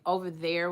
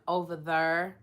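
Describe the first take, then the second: First: Said in the usual way. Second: "there" said as "thur"; "over there", Kentucky-style, vowel swallowed into the r. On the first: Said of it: "over there would be". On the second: Shown as a demonstration. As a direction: say "over there" with there rhyming with fur. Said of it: "in Kentucky, they say".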